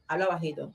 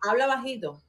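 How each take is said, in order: First: Softer and lower, calming; speak softly. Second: Said in the usual way. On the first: Real, not acted. Woman asking the other to speak softly, quietly. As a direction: hush her down gently.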